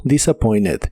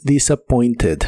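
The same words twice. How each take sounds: First: "disappointed" as "disappoined", no T; silent T. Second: "disappointed" with a clear T before the ending; T sounded. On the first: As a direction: drop the T from "disappointed". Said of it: "la T de esta palabra". ("disappointed" sin pronunciar la T) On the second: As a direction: say the full -ted in "disappointed". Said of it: "es muy común que no se pronuncie". ("disappointed" con la T pronunciada) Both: Shown as a demonstration.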